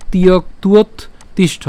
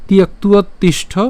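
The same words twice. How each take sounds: First: তিয়ক্তুয়ত in pieces, pause before তিষ্ঠ; broken up. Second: তিয়ক্তুয়ত তিষ্ঠ higher and joined up; said in one go. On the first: Teacher breaking the phrase down, তিয়ক্তুয়ত and তিষ্ঠ in pieces. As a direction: separate "tiyokt", "uot" and তিষ্ঠ. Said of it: "এত না ভাঙাচে একবারে বললে". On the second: Teacher easing it for learners, তিয়ক্তুয়ত তিষ্ঠ in one go. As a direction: run তিয়ক্তুয়ত straight into তিষ্ঠ. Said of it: "একবারে বললে আমার মনে হয় আপনাদের সুবিধা হবে". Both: Shown as a demonstration.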